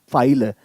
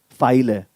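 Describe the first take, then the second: No difference in how they are said.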